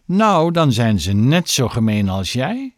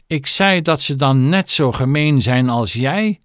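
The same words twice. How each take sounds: First: Said in the usual way. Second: Raised, emphatic voice; louder repeat. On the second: A narrator's reading. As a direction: repeat it forcefully so it lands. (luider en nadrukkelijk herhaald) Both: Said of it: "herhaalde meneer Stink nog harder".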